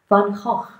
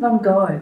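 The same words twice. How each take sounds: First: The name is said with a Dutch pronunciation. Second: The name is said with an English pronunciation.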